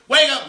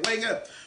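First: It is barked harshly, like a drill sergeant. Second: It is urged warmly, like an encouraging coach. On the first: The listener is being scolded and belittled. The speaker calls it wrong. "He's not the drill sergeant" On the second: The listener is being pushed to grow. The speaker calls it right. "He's that coach in your ear saying"

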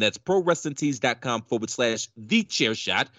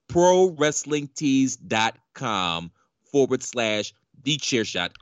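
First: It is said fast. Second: It is said slowly.

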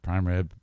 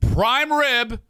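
First: It is said flatly with little energy. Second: It is said with lively, projected energy. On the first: It is casual talk at home. "there's not nearly as much energy" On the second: It is presented as if broadcasting to an audience. "that's me describing it to you"

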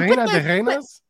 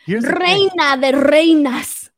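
First: The R sounds are rolled lightly. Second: The R sounds are rolled strongly and exaggerated.

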